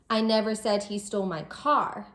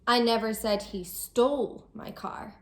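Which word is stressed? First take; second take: car; stole. First: The word car carries the main stress. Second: The word stole carries the main stress. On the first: He stole something other than the car. "He didn't steal my car, maybe he stole something else" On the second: He took the car some other way, not by stealing. "I might be saying that he didn't steal my car, maybe he borrowed it"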